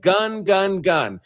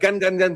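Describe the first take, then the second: First: The word is repeated slowly with gaps. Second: The word is repeated rapidly like bursts. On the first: The speaker calls it wrong. "they don't say it that slowly" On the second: The speaker calls it right. "It sounds almost like a machine gun"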